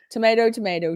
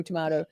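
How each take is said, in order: First: "Tomato, tomato" with "tomayto". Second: "tomato" said softer and lower as "tomahto"; other tomato. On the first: Streamer mocking the pronunciation debate in the "tomayto" way. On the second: Streamer finishing the pronunciation joke with "tomahto". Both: Shown as a demonstration. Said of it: "we say things longer".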